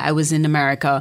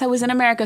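First: It is said in the speaker's natural accent. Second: It is said in a put-on American accent.

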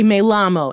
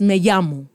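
First: The double L sounds like an English L. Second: The double L sounds like an English Y. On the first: The speaker calls it wrong. "No one say me llamo" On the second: The speaker calls it right. "It's me llamo"

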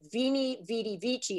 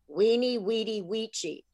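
First: Each word begins with a V sound. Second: Each word begins with a W sound. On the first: The speaker calls it wrong. "You've been pronouncing it wrong" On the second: The speaker calls it right. "is actually"

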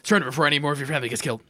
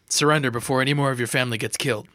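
First: The line is spoken very fast. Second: The line is spoken at a normal speed.

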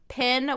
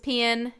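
First: The vowel is the standard 'e' of pen. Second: The vowel sounds like the 'i' of pin.

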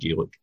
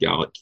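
First: The word is pronounced the Irish way. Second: The word is pronounced the Scottish way. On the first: This is how people say it elsewhere. "rather than Gaelic" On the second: This is how people say it here. "they pronounce it Gaelic here"

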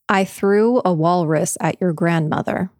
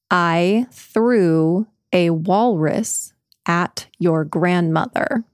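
First: The sentence is spoken at a normal pace. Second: The sentence is spoken at a slow pace. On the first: "this is normal speed?" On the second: "This is a slow, slow"

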